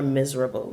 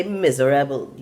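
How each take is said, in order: First: Said in the usual way. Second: "miserable" said in Caribbean style, every syllable enunciated, mi-ze-ra-ble; Caribbean enunciation. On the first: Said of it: "we don't say people are miserable". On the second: Shown as a demonstration. Explaining to viewers how Caribbean people say "miserable", each syllable enunciated. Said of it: "Enunciate every syllable in that".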